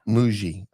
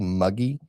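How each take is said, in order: First: The middle consonant is a soft J sound. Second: The middle consonant is a hard G sound. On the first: The speaker calls it right. "It's Muji" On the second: The speaker calls it wrong. "I'm going to say Muggy"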